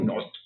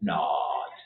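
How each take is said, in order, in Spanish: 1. El vocal es una 'o' redondeada, como en español. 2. El vocal es un 'ah' abierto. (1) "No digo not" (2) "Digo not. Nos abrimos más la boca"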